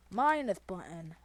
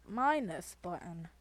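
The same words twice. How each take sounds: The two takes are said the same way.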